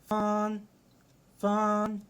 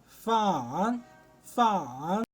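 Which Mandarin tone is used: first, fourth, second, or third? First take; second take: first; third. First: It is said with a flat, level tone. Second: It is said with the third tone. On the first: "أول واحدة لها آه زي ما تقول كده آه حتة واحدة" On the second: "تالت لهجة معانا"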